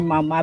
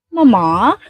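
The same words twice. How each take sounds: First: It is said in the speaker's local accent. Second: It is said in a British accent. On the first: This is how people say it locally. "We call it here mama" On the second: This is how people say it in British films. "but there they speak like mama"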